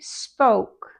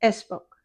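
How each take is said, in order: First: It starts directly with the s sound. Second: It starts with an extra eh sound. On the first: The speaker calls it right. "Stephanie spoke" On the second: The speaker calls it wrong. "not spoke"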